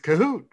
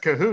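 First: It is said excitedly, like an exclamation. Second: It is said flatly, without excitement.

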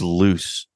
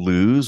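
First: The name ends with an s sound. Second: The name ends with a z sound. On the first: "I thought it was loose. Like the goose is loose" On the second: "Are you saying lose?"

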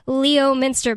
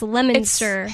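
First: Every written syllable of the word is pronounced. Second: The word is said shorter, with fewer syllables. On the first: The speaker calls it wrong. "it's spelled Leominster" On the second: The speaker calls it right. "but it's Leominster"

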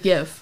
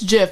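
First: The word starts with a hard G sound. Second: The word starts with a soft G sound. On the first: The G stands for graphics. The speaker calls it right. "G is like hard G for graphics... it should be GIF" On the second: The creator says it this way. The speaker calls it wrong. "The guy who like made it was like, it's GIF"

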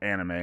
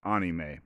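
First: The word has an American English pronunciation. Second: The word has a Japanese pronunciation. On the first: This is how an American says it. "I'm just going to call it anime because I'm an American" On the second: This is how it is said in Japan. "in Japan, you would pronounce it anime"

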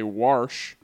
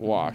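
First: An r sound comes before the sh. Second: No r sound comes before the sh. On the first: This is how older local speakers say it. The speaker calls it wrong. "Baby boomers and older also love to say Warsh" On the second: This is the standard way to say it. The speaker calls it right. "instead of Wash"

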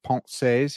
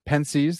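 First: It is pronounced the French way. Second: It is pronounced the American way. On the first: "the proper pronunciation of Pensées" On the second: "the way that American swine like me pronounce it"

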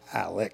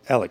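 First: The name ends with a ks sound. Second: The name ends with a plain k sound. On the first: This matches the written spelling of the name. "not deviate too far away from" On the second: This is how locals and the family say it. "down in the Lowcountry and his family, they actually say Alec"

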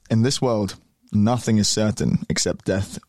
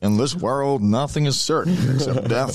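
First: It is said in the speaker's normal accent. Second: It is said in a put-on old-fashioned accent.

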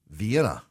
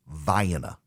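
First: It uses the usual pronunciation of the European capital. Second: It uses the local pronunciation of the Georgia town. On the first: The speaker calls it wrong. "You would think, undoubtedly, dear listener, that it is pronounced Vienna. You would be wrong" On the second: The speaker calls it right. "It is pronounced Vienna"

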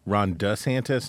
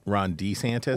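First: The surname begins with a short 'duh' sound. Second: The surname begins with a long 'dee' sound. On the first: The speaker calls it right. "So it's Ron DeSantis" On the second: The speaker calls it wrong. "not Ron DeSantis?"

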